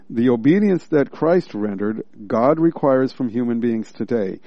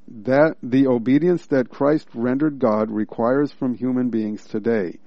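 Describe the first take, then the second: First: There is a pause after rendered. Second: It runs on without a pause after rendered.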